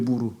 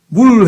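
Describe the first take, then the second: First: The word ends with an added vowel. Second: The word ends in a final L consonant. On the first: The speaker calls it wrong. "무루 그러죠" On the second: The speaker calls it right. "물 해야 되는데"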